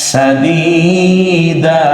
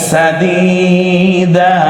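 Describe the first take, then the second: Both takes have the same delivery.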